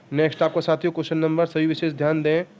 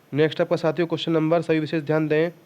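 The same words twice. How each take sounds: The two takes are said the same way.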